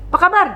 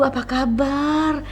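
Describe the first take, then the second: First: It is said loudly, short and harsh. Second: It is said slowly and softly. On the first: The speaker comes across as rude. "berbicara lantang, orang berbicara singkat, keras" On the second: The speaker comes across as gentle. "bicara yang perlahan"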